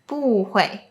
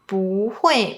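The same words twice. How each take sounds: First: Bu is said with a falling tone. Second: Bu is said with a rising tone. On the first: The speaker calls it wrong. "might still pronounce bu as the fourth tone" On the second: The speaker calls it right. "it becomes the second tone, which is a rising tone"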